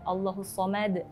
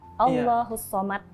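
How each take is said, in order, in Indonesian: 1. Huruf d terakhir dilepas dengan pantulan. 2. Huruf d terakhir dipotong tanpa pantulan.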